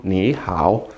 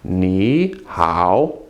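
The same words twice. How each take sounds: First: "Ni hao" with both syllables low and dipping; both third tone. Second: "Ni" rising, then low dipping "hao"; second-tone Ni. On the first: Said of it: "quickly in both in third tone". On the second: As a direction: lift "Ni" as a second tone before third-tone "hao". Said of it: "make the first one a second tone". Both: Shown as a demonstration.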